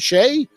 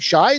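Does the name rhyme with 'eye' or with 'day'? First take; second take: day; eye. First: The vowel sounds like the one in 'day'. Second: The vowel sounds like the one in 'eye'. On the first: "like Cheyenne" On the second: "like shy"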